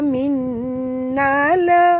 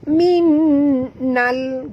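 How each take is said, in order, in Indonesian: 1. Bunyi l terakhir dilepas dengan vokal tambahan. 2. Bunyi l terakhir ditahan tanpa vokal tambahan. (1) "Jangan baca ... nala tak mau" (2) "Tongkatkan lidah terus ke langit tanpa lantunan"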